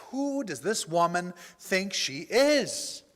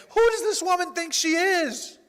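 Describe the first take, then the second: First: Slow, indignant question, leaning on each word; retold anger. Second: High, loud, outraged quote; mock indignation. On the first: Driver fuming about the ungrateful woman, angry. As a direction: seethe it out slowly, only a little raised. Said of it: "and I am angry". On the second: Preacher mocking himself trying to be God, indignant. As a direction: imitate self-righteous outrage, pitched way up. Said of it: "trying to be God and saying".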